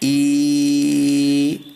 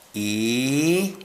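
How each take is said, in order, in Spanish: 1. La vocal se mantiene en un tono plano. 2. El tono de la vocal baja. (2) "de bajada"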